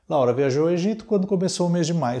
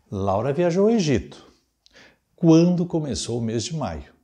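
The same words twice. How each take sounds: First: The sentence runs on without a pause. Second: There is a pause before the second clause. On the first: No special emphasis on the second clause. "simplesmente não uso a vírgula" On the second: The second clause is given emphasis. "eu faço uma pausa e introduzo a segunda oração"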